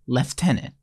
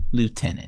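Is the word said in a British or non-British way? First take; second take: British; non-British. First: The word is said in a British way. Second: The word is said in a non-British way.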